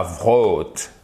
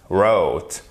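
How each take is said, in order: First: Wrote with a wrongly sounded "v" before the r, "vrote". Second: Wrote starting directly on English r, like "rote"; silent W. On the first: English teacher shows the mistake with W R, sounded W. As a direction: pronounce the silent w of wrote as "vr". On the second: English teacher corrects the past tense for learners, silent W. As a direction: say wrote low, with the w unspoken. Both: Shown as a demonstration. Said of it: "C'est pas wrote".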